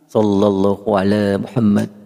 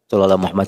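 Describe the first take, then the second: First: It is recited slowly and calmly. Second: It is recited quickly and hurriedly. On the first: The speaker calls it right. "jangan ngejar bilangan" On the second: The speaker calls it wrong. "Enggak benar bacanya"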